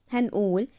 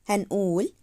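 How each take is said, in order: The two takes are said the same way.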